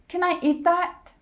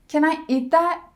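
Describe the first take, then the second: The two takes are said the same way.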